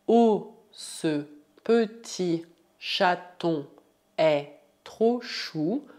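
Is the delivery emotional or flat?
flat. It is said in a plain, neutral way.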